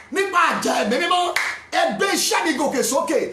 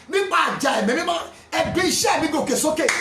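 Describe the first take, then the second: No difference in how they are said.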